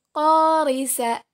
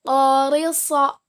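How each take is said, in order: First: Qarisa slowly, ending in light "sa"; letter sin. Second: Qarisa slowly, ending in heavy "so"; letter sad. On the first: Teacher contrasts two letters for students, qarisa with light "sa". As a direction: say qarisa as "qorisa", thin S. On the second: Teacher contrasts two letters for students, Qarisa with heavy "so". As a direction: say Qarisa as "qoriso". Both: Shown as a demonstration. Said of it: "Perbandingan antara huruf so dan huruf sa".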